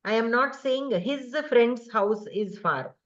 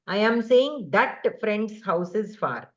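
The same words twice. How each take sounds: First: Slow, contrastive stress on "his". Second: Slow, contrastive stress on "that". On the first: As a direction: lean on "his" to set it against "that". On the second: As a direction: lean on "that" to correct the reading with "his". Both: Shown as a demonstration. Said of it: "So do you see the difference?".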